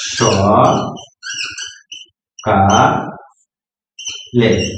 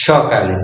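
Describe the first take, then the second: First: স, কা, লে spoken apart with long pauses; syllable dictation for a child; split into syllables. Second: Said in the usual way. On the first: Shown as a demonstration. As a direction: break সকালে into three slow pieces. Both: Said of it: "শব্দটা তুমি লিখে".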